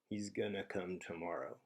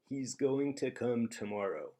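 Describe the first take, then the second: First: Going to is reduced to one word, gonna. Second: Going to is said fully as two words. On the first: "an American speaker is gonna say he's gonna come tomorrow" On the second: "I could say he's going to come tomorrow, but I probably wouldn't"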